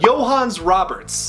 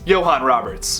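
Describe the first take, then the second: First: The first name ends with an s sound. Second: The first name ends without an s sound. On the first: "please excuse my pronunciation if this is completely wrong" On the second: "The S is silent"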